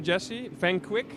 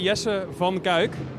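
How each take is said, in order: First: The name is said with an English pronunciation. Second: The name is said with a Dutch pronunciation. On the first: "I would also listen to" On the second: "if you want to go Dutch"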